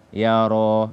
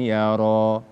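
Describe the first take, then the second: No difference in how they are said.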